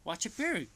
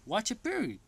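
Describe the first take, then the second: First: The t in pity is a flapped r-like sound. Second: The same.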